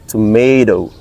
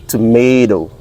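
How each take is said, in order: Both takes have the same delivery.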